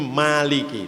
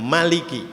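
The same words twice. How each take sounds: First: The first vowel is drawn out long. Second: The first vowel is short. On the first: The speaker calls it wrong. "Maliki panjang" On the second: The speaker calls it right. "Imam Susi itu bacaannya Maliki"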